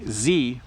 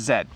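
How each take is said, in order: First: The letter is pronounced 'zee', rhyming with see. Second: The letter is pronounced 'zed', rhyming with bed. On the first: This is how it is said in America. "In America, they say Z, which sounds a lot like C" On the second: This is how it is said in Canada. "So in Canada, we say Z"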